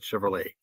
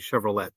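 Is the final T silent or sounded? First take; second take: silent; sounded. First: The final t sound is silent. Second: The final t sound is pronounced. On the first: The speaker calls it wrong. "not Chevrolet" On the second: The speaker calls it right. "with a T, so it's actually Chevrolet"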